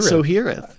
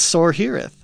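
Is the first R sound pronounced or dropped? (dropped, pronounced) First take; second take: dropped; pronounced. First: The first R sound is left out. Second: The first R sound is clearly pronounced. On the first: The speaker calls it wrong. "You're leaving out the first R" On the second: The speaker calls it right. "I very much pronounced the S-O-R there"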